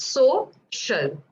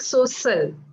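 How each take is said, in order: First: The middle consonant is a clear sh sound. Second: The middle consonant is not a clear sh. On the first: The speaker calls it right. "So remember that it's social" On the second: The speaker calls it wrong. "when you're saying it in a sentence, it sounds like social"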